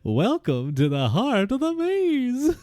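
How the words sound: It is said in a silly fool's voice.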